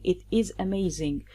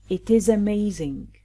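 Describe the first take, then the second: First: Each word is said separately without linking. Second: The final consonants run into the following vowels. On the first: The speaker calls it wrong. "we don't say it is amazing" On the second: The speaker calls it right. "We link T to I and then S to A"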